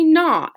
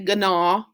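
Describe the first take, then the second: First: The word starts with an N sound. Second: The word starts with a hard G sound. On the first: The speaker calls it right. "the G in gnaw is actually silent" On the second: The speaker calls it wrong. "You don't say gnaw. That would just be silly"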